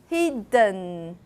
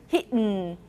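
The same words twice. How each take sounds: First: A weak vowel is heard before the final n. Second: The d releases straight into the n, no vowel. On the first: "If you do schwa and n" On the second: "Try not to release your D. You have to hold your tongue right there and then do the nasal there"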